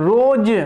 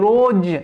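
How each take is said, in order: No difference in how they are said.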